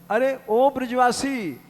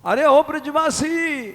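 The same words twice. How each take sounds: First: Higher, louder call after someone. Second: Very high, loud searching call; louder calling. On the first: Sadhu calling after the villager who vanished, louder call. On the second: Sadhu calling again for the vanished villager, very high and loud. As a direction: call out again, more desperately. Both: Acted.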